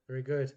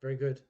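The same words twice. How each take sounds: The two takes are said the same way.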